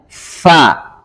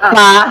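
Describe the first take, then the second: First: The f has clear flowing breath. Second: The f is clipped with little airflow. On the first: The speaker calls it right. "harus ada hamsnya" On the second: The speaker calls it wrong. "Ada nggak sifatnya? Ah, salah"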